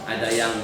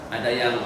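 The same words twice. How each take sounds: The two takes are said the same way.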